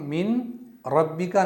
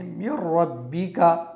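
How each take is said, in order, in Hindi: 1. r से पहले एक साफ़ n की आवाज़ आती है। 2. n पूरी तरह एक दोहरे r में मिल जाता है। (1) "नहीं पढ़ेंगे" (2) "बल्कि मिर रब्बी का पढ़ेंगे"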